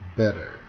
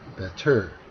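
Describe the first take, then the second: First: The stress is on the first syllable. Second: The stress is on the second syllable. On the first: The speaker calls it right. "앞 음절에 강세가 있어야" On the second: The speaker calls it wrong. "강세를 뒤로 주어서"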